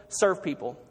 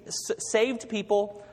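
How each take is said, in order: First: Serve stressed, falling to the end. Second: Slow, with the word Saved leaned on; Saved drawn out and stressed. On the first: Preacher giving the answer, landing hard on Serve. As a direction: punch the word Serve against Saved. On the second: Preacher teaching the motto slowly, stressing Saved. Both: Shown as a demonstration. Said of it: "It's kind of easy to remember".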